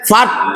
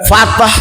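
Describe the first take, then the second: First: The final t is short with no added vowel. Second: The final t bounces into an added vowel. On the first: The speaker calls it right. "Fat, bukan fatah" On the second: The speaker calls it wrong. "Kalau fatah nanti taknya kolkolah"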